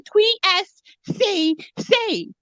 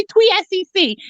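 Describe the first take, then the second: First: "T S C C" slowly, each letter drawn out; corrective pronunciation. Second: "T S C C" run together quickly as "twee-ess-cee-cee"; disputed pronunciation. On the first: Shown as a demonstration. Guest correcting the interviewer, slow corrective pronunciation. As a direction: spell out "T S C C" slowly, T as "twee". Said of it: "I said T S C C". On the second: Retold or imitated. Guest objecting to how interviewer said it, disputed pronunciation. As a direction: echo "T S C C" back in one unbroken run. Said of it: "I didn't say T S C C".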